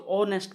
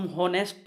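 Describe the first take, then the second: First: ऑनेस्ट with a silent h, opening on the vowel; ऑनेस्ट said with no h at all; correct pronunciation. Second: हॉनेस्ट with a sounded h; हॉनेस्ट said with the h breathed, as the wrong way; wrong pronunciation. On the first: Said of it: "हम इसको ऑनेस्ट पढ़ते हैं". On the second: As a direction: pronounce the h in हॉनेस्ट. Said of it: "हॉनेस्ट तो नहीं पढ़ते". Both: Shown as a demonstration.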